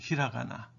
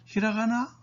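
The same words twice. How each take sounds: First: The pitch falls at the end of the word. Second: The pitch rises at the end of the word. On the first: It answers that this is hiragana. "응답할 때는" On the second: It asks whether this is hiragana. "하고 올리면 그거 히라가나니? 이런 물음이 됩니다"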